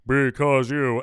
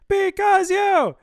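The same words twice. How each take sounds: First: The voice is pitched in a low register. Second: The voice is pitched in a high register. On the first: "in the lower octave" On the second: "up in your higher octave"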